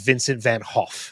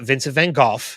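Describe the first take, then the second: First: The name is said with Dutch sounds, no hard G. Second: The name is said with English sounds and hard G. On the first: The speaker calls it right. "The proper Dutch pronunciation" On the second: The speaker calls it wrong. "It's not"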